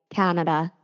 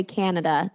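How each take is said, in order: First: "Canada" gently, a little lower; guest's Canadian "Canada". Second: "Canada" in the host's everyday American way; host's own "Canada". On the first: Retold or imitated. Host imitating the guest, "Canada" said the gentle Canadian way. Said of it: "I think you say". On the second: Shown as a demonstration. Host comparing with the guest, "Canada" in own American way. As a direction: say "Canada" with the usual American first vowel. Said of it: "I say Canada".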